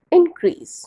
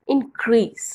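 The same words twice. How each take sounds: First: Increase with the stress on IN, high and loud; stress on first syllable. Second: Verb increase with the stress on CREASE; stress on second syllable. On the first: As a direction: noun increase, punch the first part IN-crease. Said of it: "आपका जो stress है वो first part पे होगा". (संज्ञा increase, पहले हिस्से पर ज़ोर) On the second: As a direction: say increase as in-CREASE, lean on the end. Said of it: "increase में जो सेकंड पार्ट पे, वहाँ पे स्ट्रेस होगा". (क्रिया increase, दूसरे हिस्से पर ज़ोर) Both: Shown as a demonstration.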